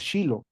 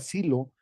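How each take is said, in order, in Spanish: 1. El nombre empieza con un sonido sh. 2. El nombre empieza con un sonido s simple. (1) "así se escribe y así se pronuncia" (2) "se anota Silo"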